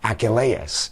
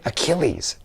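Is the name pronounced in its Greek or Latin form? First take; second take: Greek; Latin. First: The name is said in its Greek form. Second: The name is said in its Latin-derived form. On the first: This is the original form they did not hear. "not Achilles" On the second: This is the form English poets learned in school. "they grew up hearing Achilles"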